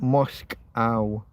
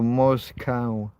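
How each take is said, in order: First: "Moscow" slowly split after the k, as Mosk-ow; contrasting syllable break. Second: "Moscow" sounded out literally, breaking before "cow"; literal left-to-right Moscow. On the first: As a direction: keep the k on the first syllable of "Moscow". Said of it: "They don't break things up the way we break them up". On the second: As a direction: say "Moscow" slowly as Mos-cow, ending like the animal. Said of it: "taken left to right in a literal". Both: Shown as a demonstration.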